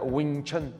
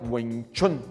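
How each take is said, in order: First: It is said the way English speakers say it. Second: It is said closer to the original Chinese sound. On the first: The speaker calls it wrong. "eles falam até Wing Chun" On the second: The speaker calls it right. "a pronúncia mais próxima seria Wing Chun"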